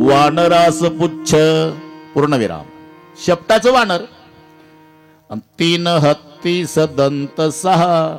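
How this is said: The first pause comes after the word pucch. The monkey has a tail and the elephant has tusks. "फक्त पूर्णविराम पुढे गेला"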